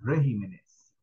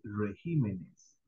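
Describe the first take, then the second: First: The stress is on the first syllable. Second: The stress is on the second syllable. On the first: The speaker calls it wrong. "no se dice regímenes" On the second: The speaker calls it right. "En plural se dice regímenes"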